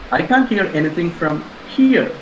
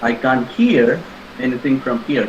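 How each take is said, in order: First: The stress is on the word here. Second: The stress is on the word hear. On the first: Moving closer might make hearing possible. "which means perhaps if I move two or three steps forward" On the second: The speaker can see but not hear. "but I can see"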